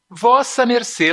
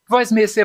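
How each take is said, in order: First: Every syllable of the phrase is said in full. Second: The phrase is squeezed into fewer syllables. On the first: The older, longer form of address. "Lá no passado as pessoas se tratavam assim" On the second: A later, shortened form of address. "voz mercê também é um pouco comprido"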